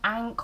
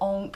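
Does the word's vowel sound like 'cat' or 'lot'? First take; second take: cat; lot. First: The vowel sounds like the one in 'cat'. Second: The vowel sounds like the one in 'lot'. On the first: "ank or onk, it depends how you want to pronounce it" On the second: "ank or onk, it depends how you want to pronounce it"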